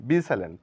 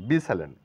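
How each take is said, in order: Both takes have the same delivery.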